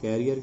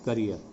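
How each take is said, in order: First: The first vowel sounds like 'care'. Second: The first vowel sounds like 'kuh'. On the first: The speaker calls it wrong. "बहुत से लोग इसका उच्चारण कैरियर के रूप में करते हैं" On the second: The speaker calls it right. "इसका जो सही उच्चारण है वो है करियर"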